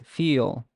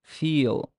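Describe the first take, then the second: The two takes are said the same way.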